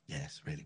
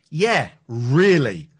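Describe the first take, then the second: First: It is said quietly and smaller. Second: It is said loudly and firmly.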